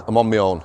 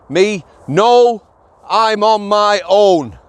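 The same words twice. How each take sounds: First: Low-pitched, understated polite reply. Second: Higher, slow, over-emphatic mock reply; exaggerated brusque refusal. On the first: Officer on his own turning a prisoner down, politely. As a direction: state it civilly, without any push. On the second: Officer refusing a prisoner's request, in exaggerated emphatic tones. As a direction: hammer out each word as a hammed-up refusal. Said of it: "I didn't say it like that". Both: Shown as a demonstration.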